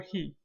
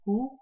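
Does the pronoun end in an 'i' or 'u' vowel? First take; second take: i; u. First: The pronoun ends with an 'i' vowel. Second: The pronoun ends with an 'u' vowel. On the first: It comes after a kasra or a ya. "or it will be pronounced he" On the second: This is the usual form of the pronoun. "The pronoun will either be pronounced hu"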